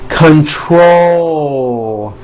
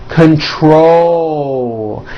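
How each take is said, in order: Both takes have the same delivery.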